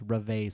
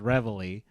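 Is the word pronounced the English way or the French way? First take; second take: French; English. First: It is pronounced with French sounds. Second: It is pronounced with English sounds. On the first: "if you're gonna keep some of the French pronunciation" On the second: "If you want to fully North Americanize it"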